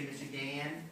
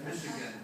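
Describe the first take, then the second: First: The unstressed vowel is said as a full vowel. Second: The unstressed vowel is reduced to a schwa. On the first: "Do we say Michigan? Some people do, I guess" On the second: "but it's Michigan, right? ... So it's a schwa"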